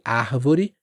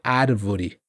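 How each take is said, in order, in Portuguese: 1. O R é um som aspirado, com sopro. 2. O R é uma batida rápida perto dos dentes. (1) "árvore pode ter esse som aspirado aqui do R, árvore, como no Rio de Janeiro" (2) "Em São Paulo, o árvore pode ter esse som parecido com o do barato"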